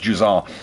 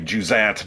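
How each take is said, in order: First: The ending is said the French way, without t. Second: The ending is said as written, with a final t. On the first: The speaker calls it right. "It's Juzon" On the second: The speaker calls it wrong. "it looks like it should be Juzant, but it's not"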